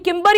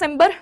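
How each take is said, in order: First: The name begins with a hard K sound. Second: The name begins with a soft S sound. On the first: "कुछ लोग इसे किम्बर बुलाते हैं" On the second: "कुछ लोग इसे सिम्बर बुलाते हैं"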